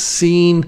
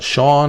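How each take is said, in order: First: The name begins with an S sound. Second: The name begins with an SH sound. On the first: This is how the owner says his name. "He says Scene" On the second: This is not how the owner says his name. "He doesn't pronounce it uh"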